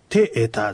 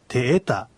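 First: The accent falls on the first vowel. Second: The accent falls on the second vowel. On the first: The speaker calls it wrong. "てえたじゃなくて" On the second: The speaker calls it right. "てえたとなるわけです"

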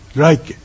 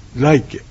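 Both takes have the same delivery.

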